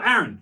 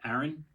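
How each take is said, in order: First: The name is said loudly, with a raised voice. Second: The name is said quietly, without a raised voice. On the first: The student's attention is caught. "sometimes raising your voice" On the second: The student does not notice being called. "they cannot hear you if you say"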